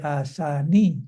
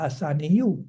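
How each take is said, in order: First: The word ends on a plain vowel sound. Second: The word ends with an added -yu sound. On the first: The speaker calls it right. "Jadi asani" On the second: The speaker calls it wrong. "tidak sebuah asaniyu"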